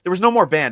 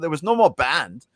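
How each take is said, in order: First: It is spoken in a plain, unaccented voice. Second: It is spoken with a German accent.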